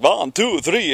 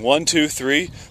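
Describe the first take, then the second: First: It is counted in a German-like foreign accent. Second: It is counted in a plain accent. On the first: This is how it actually came out. "but it was like" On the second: This is what she meant to say. "She was just like counting"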